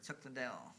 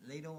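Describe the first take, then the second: First: "Liddell" said luh-DELL; preferred pronunciation. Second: "Liddell" said LAY-dul; alternative pronunciation. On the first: Offering both versions of the name, then "Liddell" as luh-DELL. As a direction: put the stress at the end of "Liddell", luh-DELL. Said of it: "I like Chuck Liddell". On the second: Offering both versions of the name, first "Liddell" as LAY-dul. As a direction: put the stress up front in "Liddell", LAY-dul. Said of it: "I'm not sure how it's pronounced". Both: Shown as a demonstration.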